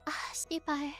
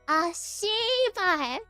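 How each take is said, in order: First: The first consonant is said short and quick. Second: The first consonant is stretched out very long.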